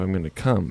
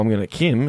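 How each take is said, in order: First: Come is said with a plain, non-Australian accent. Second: Come is said with an Australian accent, like Kim.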